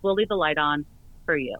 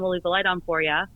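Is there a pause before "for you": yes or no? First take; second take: yes; no. First: There is a pause before "for you". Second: It runs on without a pause before "for ya".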